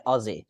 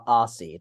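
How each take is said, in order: First: "Aussie" with a buzzing z, like Ozzie; Australian pronunciation. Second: "Aussie" with a hissing s, like "awss-ee"; mistaken American pronunciation. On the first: Guest shows host how locals say it, Australian pronunciation. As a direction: say "Aussie" with a z sound in the middle. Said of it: "over here we say Aussie". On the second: Guest mimics the version locals reject, American-style pronunciation. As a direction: say "Aussie" with an s sound, no z. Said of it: "not A-, Aussie. That, nah". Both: Shown as a demonstration.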